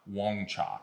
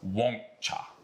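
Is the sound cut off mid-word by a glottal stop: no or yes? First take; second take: no; yes. First: The sound flows through without a stop. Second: The sound stops briefly in the middle. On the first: The speaker calls it wrong. "it's not Wong Cha" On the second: The speaker calls it right. "you got to stop the sound in the middle of it"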